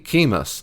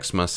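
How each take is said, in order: First: The word begins with a 'k' sound. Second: The word begins with an 'eks' sound. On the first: The speaker calls it right. "it's actually key, Chemus" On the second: The speaker calls it wrong. "it's not Xmas"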